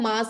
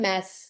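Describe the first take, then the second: First: The vowel is a long open 'ah' sound. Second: The vowel is a short 'a' as in cat. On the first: This is how people usually say it. The speaker calls it wrong. "बोलते हम मास है" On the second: This is how it should properly be said. The speaker calls it right. "Actually बोलना चाहिए मैस"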